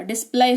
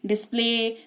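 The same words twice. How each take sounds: First: डिस्प्ले said wrongly as "dis-plai", rhyming with eye; mispronounced demo. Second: डिस्प्ले said as "dis-play", ending on a pure "e"; correct pronunciation demo. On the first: Teacher showing what would happen if y sounded, डिस्प्ले said as "dis-plai". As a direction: end डिस्प्ले on an "ai" sound instead of "ay". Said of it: "ऐसा नहीं हो रहा है". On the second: Teacher modelling it for learners, डिस्प्ले pronounced "dis-play". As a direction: end डिस्प्ले on "ay", with no y sounded. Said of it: "ऐसे उच्चारण हो रहा है". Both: Shown as a demonstration.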